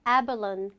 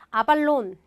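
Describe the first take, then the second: First: The stressed first vowel sounds like 'eh'. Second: The first vowel is a flat 'ah' sound. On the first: The speaker calls it right. "A의 강세를 받으면 아가 아니라 에라고 발음한다" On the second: The speaker calls it wrong. "이걸 아발론 이렇게 발음하지 마시고요"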